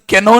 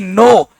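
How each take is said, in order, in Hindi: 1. इस शब्द की शुरुआत में साफ़ k की आवाज़ है। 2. इस शब्द की शुरुआत सीधे n की आवाज़ से होती है। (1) "केनो नहीं"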